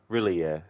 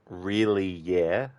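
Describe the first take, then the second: First: The words are said very quickly together. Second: The words are said slowly and separately. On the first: The speaker calls it right. "if you say it very quickly" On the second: The speaker calls it wrong. "but you don't say it um, the way that I just said it now"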